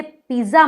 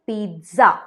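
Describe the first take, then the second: First: पिज़्ज़ा with a plain z, "pee-za"; wrong pronunciation. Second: पिज़्ज़ा as "peet-za", with a t before the z; correct pronunciation. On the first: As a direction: say पिज़्ज़ा without any t sound. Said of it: "पिज़्ज़ा मत कहिएगा". (पिज़्ज़ा को सिर्फ़ ज़ से "पीज़ा" बोलें) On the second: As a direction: put a crisp "ts" in पिज़्ज़ा. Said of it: "आप कहिए पिज़्ज़ा". (पिज़्ज़ा को "पीत-ज़ा" बोलें) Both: Shown as a demonstration.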